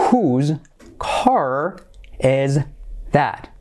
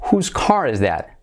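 First: Each word alone with a pause after; slow word-by-word. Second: Said in the usual way. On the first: Shown as a demonstration. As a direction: dictate it one word at a time. Slow model, then natural take. (palabra por palabra, con pausas)

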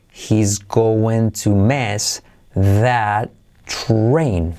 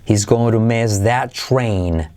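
First: Very slow, word by word; slow, careful teaching delivery; slow model. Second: Said in the usual way. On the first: Shown as a demonstration. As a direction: stretch each word of HE'S GOING TO MISS THAT TRAIN for learners.

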